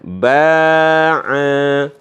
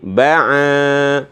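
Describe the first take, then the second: First: Both vowels are long. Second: Only the second vowel is long. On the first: "jadi dipanjangkan dua-duanya" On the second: "kalau di sini yang panjang a-nya"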